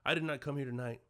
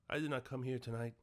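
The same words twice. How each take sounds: First: Said very humbly, imitating the character's voice. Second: Read plainly in the speaker's ordinary voice.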